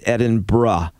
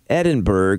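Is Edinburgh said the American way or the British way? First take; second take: British; American. First: The name is said the local British way. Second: The name is said the common American way. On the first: The speaker calls it right. "is actually pronounced" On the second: The speaker calls it wrong. "that's our fault for saying it wrong"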